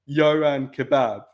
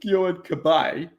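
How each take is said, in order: First: The surname is said like the word kebab. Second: The surname is said like ca-bye. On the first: The speaker calls it wrong. "he used to call him Yohan Kebab instead" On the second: The speaker calls it right. "instead of Yohan Cabaye"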